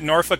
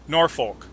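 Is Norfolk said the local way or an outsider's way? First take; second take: local; outsider. First: It is said the way locals pronounce it. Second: It is said the way an outsider pronounces it. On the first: The speaker calls it right. "Is that how the natives pronounce it?" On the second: The speaker calls it wrong. "because I would pronounce it Norfolk"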